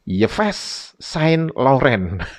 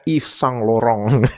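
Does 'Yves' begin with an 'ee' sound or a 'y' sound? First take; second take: y; ee. First: Yves begins with a consonant y sound. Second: Yves begins with an ee vowel sound. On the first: The speaker calls it wrong. "saya membacanya apa?" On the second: The speaker calls it right. "Jadi Y di depan itu diu- diucapkan I gitu"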